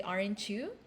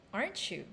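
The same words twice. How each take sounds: First: "aren't you" with the voice going up at the end; questioning upturn on "aren't you"; rising intonation. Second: "Aren't you?" with the voice going down at the end; sure, downward turn on "Aren't you?"; falling intonation. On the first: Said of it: "notice I didn't say". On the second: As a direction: drop "Aren't you?" into a confirmation. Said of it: "intonation of the question goes down". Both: Shown as a demonstration.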